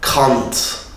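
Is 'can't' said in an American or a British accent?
British. It is said in a British accent, like 'kant'. "İngiltere ve Avustralya can't"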